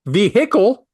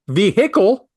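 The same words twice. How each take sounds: First: The middle h is clearly pronounced. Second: The middle h is clearly pronounced.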